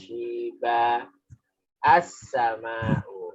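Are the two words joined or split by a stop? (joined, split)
split. The words are split by a stop before the second. The reader stopped after the first word. "kalau jenengan tadi berhenti"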